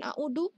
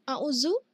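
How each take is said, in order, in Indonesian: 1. Huruf tengahnya adalah bunyi d biasa. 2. Huruf tengahnya adalah bunyi z biasa. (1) "bukan a'udu" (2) "atau a'uzu"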